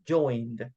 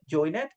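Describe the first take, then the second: First: The word ends with a single 'd' sound. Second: The word ends with an extra 'id' syllable. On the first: The speaker calls it right. "the pronunciation, remember, is joined with letter D at the end" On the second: The speaker calls it wrong. "that's the way we write it"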